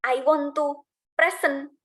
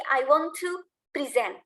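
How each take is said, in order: First: "present" said as PRE-sent, stress on the first like the noun; slow demo of the mistake, PRE-sent; "present" with first-syllable stress, PRE-sent; wrong stress. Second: "present" said as pri-ZENT, stress on the second syllable; corrected take, pri-ZENT; "present" as the verb, stressed at the end. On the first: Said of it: "Jangan bilang". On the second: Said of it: "No, tapi". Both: Shown as a demonstration.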